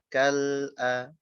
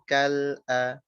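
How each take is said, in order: Both takes have the same delivery.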